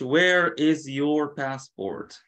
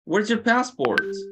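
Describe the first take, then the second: First: Every word is said fully and separately. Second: Where and is are run together as where's. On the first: The speaker calls it wrong. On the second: The speaker calls it right.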